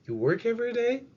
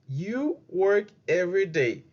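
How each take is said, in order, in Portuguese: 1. Tem a entonação interrogativa de uma pergunta. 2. Tem a entonação descendente de uma afirmação.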